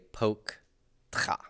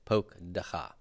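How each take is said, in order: First: The middle consonants run together with no vowel. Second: A short vowel separates the middle consonants. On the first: The speaker calls it wrong. "I can't just say poke tcha" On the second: The speaker calls it right. "So I get a vocal schwa here"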